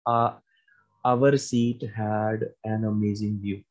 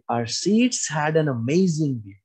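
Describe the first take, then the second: First: It is said in a plain, neutral tone. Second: It is said in an excited, lively tone. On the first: "agar isnu simple bol de" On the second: "Aur second tone agar apa boliye"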